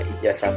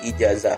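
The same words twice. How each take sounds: First: The word is said with an s sound. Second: The word is said with a z sound. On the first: The speaker calls it wrong. "kata yang tidak baku adalah ijazah memakai S" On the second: The speaker calls it right. "yang benar adalah ijazah memakai Z"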